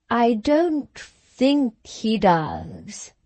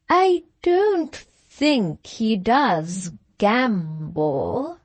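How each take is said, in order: First: Slow, hesitant and careful; very slowly. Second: Slow, with "gamble" leaned on heavily; stress on gamble. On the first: Lady Arabella answers the Countess very slowly, measuring each word. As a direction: weigh each word before letting it out. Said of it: "said Lady Arabella very slowly". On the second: Arabella hints at her husband's other vices, stressing "gamble". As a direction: drag it out and land hard on "gamble". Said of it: "put her emphasis on the word gamble". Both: A narrator's reading.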